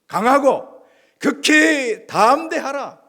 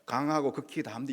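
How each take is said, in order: First: It is read forcefully, with strong energy. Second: It is read limply, without energy.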